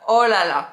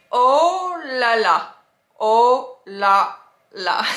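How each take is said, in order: First: Said in the usual way. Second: "oh la la" loud, every syllable stretched; slow pronunciation demo. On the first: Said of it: "that's the way you can pronounce it". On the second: Shown as a demonstration. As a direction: spell out "oh la la" sound by sound, slowly. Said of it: "pronounce it".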